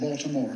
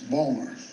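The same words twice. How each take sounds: First: It is said in a standard, full pronunciation. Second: It is said the local Baltimore way.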